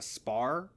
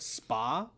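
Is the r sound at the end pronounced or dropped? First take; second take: pronounced; dropped. First: The final r sound is pronounced. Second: The final r sound is dropped. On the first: "they keep referring to Mavic Chen's ship as a spar" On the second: "because of their British accent, they call it a spa"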